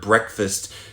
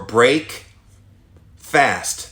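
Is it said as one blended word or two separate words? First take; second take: one word; two words. First: It is said as one blended word. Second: It is said as two separate words. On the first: The usual name for the morning meal. "the word breakfast" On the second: The meal that ends a fast, at any hour. "I want you to say it that way uh, explicitly from now on"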